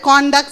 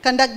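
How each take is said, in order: First: "Conduct" as CON-duct; noun pronunciation. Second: "Conduct" as kun-DUCT; reduced first vowel in "Conduct"; verb pronunciation. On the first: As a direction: say "Conduct" with a full round O. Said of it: "Both are there". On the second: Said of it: "Conduct is a verb". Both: Shown as a demonstration.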